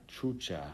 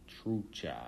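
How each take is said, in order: No difference in how they are said.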